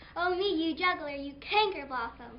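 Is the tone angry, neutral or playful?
angry. It is said angrily, as if just slapped.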